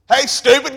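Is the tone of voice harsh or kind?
harsh. It is said in a harsh, scolding tone. The listener is being scolded. "He kind of cowers down and walks over to you"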